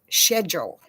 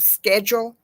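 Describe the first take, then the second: First: It is said with a British pronunciation. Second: It is said with an American pronunciation. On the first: "King Charles says schedule" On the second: "instead of schedule"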